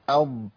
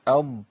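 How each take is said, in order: Both takes have the same delivery.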